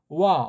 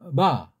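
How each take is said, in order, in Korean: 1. 입술이 거의 닿지 않아서 w 소리가 납니다. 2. 입술을 가볍게 대어 부드러운 v 소리를 냅니다. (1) "너무나 이걸 약하게 해서 와자라고 들려요" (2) "붙이긴 붙이는데 오래 붙이지 않고 살짝"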